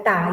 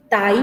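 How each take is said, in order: First: Tai as ta-I, weight on the last vowel; stress on final I. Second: Tai as TA-i, weight on the A; stress on the A. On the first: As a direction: stretch and stress the closing i of tai. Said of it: "Si yo escribo sin acento". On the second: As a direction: lean on the first vowel of tai. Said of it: "con acento aquí". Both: Shown as a demonstration.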